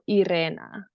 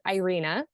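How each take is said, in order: First: The R is rolled. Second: The R is said without a roll. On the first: "if you can roll your R's, you can say my name the right way" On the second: "the American way is Irina"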